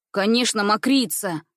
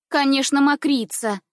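First: A hint of sure, smug certainty in Конечно, мокрица; confident. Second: High, louder eager Конечно, мокрица; eager confirmation. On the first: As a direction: state it as settled fact. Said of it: "произнёс он уверенным голосом". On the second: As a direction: chime in eagerly to back her brother. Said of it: "подтвердила его слова Ниночка". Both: A narrator's reading.

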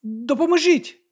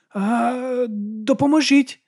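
First: High, slow, tentative cry; unsure shout. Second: High, slow, half-hearted cry for help; hesitant call for help. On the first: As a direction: call for help, not quite committing. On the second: Man on the ground calling for help on demand, unsure and high. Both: A narrator's reading. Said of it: "невпевнено крикнув він".

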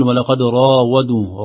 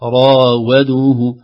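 First: راودوه with the و as heavy as the ر; heavy w, wrong. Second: راودوه very slow, heavy ر and thin و; light w, correct. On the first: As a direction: let the و of راودوه go thick. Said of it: "لو لم ننتبه سنقول". (نطق خاطئ بتفخيم الواو في راودوه) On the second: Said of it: "وليست". (نطق صحيح لراودوه بترقيق الواو ببطء) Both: Shown as a demonstration.

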